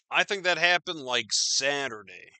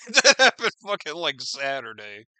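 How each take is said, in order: First: Said in the usual way. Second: Laughing. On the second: Real, not acted. Vlogger repeating the date to viewers, laughing. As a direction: laugh out "That happened fucking".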